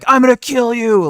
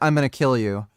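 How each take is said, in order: First: It is said loudly and angrily. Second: It is said quietly and calmly.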